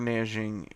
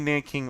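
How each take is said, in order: First: The second syllable starts with a j sound. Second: The second syllable starts with a k sound. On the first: This is the Chinese form of the name. "that's the Chinese pronunciation" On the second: This is the English form of the name. "American English"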